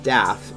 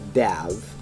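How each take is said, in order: First: The name ends with an f sound. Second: The name ends with a v sound. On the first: The speaker calls it wrong. "remember his name is not Daff" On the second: The speaker calls it right. "it's Dav"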